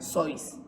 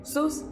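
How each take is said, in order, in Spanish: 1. El nombre se dice a la manera alemana. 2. El nombre se dice a la manera estadounidense. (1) "este es un nombre alemán. Se debería de pronunciar Zeus" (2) "en Estados Unidos la gente empezó a decirle Sus y así es como se debe de decir"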